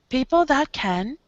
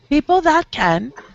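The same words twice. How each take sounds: First: It is said flatly, with little air or movement. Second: It is said with more air and movement. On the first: The speaker calls it wrong. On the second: The speaker calls it right.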